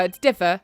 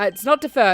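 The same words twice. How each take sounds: First: "differ" with stress on the first syllable, DIF-fer; correct pronunciation. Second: "defer" with stress on the second syllable, de-FER; wrong pronunciation. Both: Shown as a demonstration. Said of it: "There is a difference between those two words".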